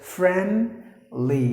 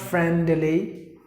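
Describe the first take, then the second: First: The D sound is left out. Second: The D sound is clearly pronounced. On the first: The speaker calls it right. "the letter D is silent. So you have to pronounce the word as friendly" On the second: The speaker calls it wrong. "not friendly"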